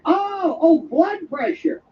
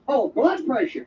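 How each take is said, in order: First: Drawn-out, higher "Oh, blood pressure"; exaggerated realization. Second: Said in the usual way. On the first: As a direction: stretch it out as the penny drops. Exaggerated realization of the misheard word.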